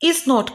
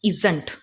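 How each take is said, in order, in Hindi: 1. यह दो पूरे शब्दों के रूप में बोला जाता है। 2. यह एक संकुचित शब्द के रूप में बोला जाता है।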